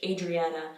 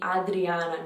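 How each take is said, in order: First: It is said with an English pronunciation. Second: It is said with an Italian pronunciation. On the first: This is how it is said in English. "I would say Adriana in English" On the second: This is how it is said in Italian. "In Italian, it would be Adriana"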